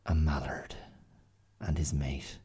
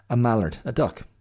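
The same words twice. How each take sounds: First: Whispered under the breath; hushed. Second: Higher and louder, rising at the end; bright clarification. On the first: Telling listeners about the ducks, in a whisper. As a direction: whisper it as if not to scare the ducks. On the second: Telling listeners what a mallard is, louder and higher. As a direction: explain the word with a lift. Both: Real, not acted.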